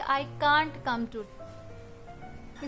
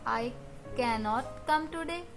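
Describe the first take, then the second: First: The negative is contracted into one syllable. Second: The negative is said in full as two syllables. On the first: "या फिर इसको बोलेंगे I कांट come today" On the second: "इसको कैन नॉट बोलते हैं"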